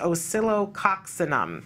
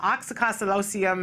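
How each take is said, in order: First: The word begins with 'os' and ends 'cinum'. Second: The word begins with 'oks' and ends 'losium'. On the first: The speaker calls it right. "the correct pronunciation is" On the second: The speaker calls it wrong. "I call it"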